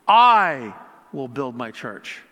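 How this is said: The word 'I' is stressed. "putting an emphasis on each word"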